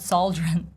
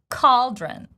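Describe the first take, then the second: First: The word begins with an S sound. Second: The word begins with a K sound. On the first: The speaker calls it wrong. "It's not sauldron" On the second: The speaker calls it right. "C in this particular word pronounced as K"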